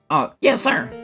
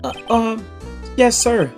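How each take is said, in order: First: It is said in a high-pitched, nerdy voice. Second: It is said in an ordinary, not high-pitched voice.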